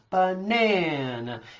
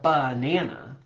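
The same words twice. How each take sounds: First: The stress is on the second syllable. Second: The stress is on the first syllable. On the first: The speaker calls it right. "where you really put that emphasis is on the nana" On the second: The speaker calls it wrong. "you don't say, I'd like a banana"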